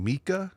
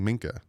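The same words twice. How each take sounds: First: "Mika" as MEE-kah, with no N, rising at the end. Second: "Minka" said quickly with a light N before the K. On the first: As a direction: say "Mika" with a long EE and no N. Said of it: "they think I'm saying Mika". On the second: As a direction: slip a short N into "Minka". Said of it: "but I'm saying it quickly". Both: Shown as a demonstration.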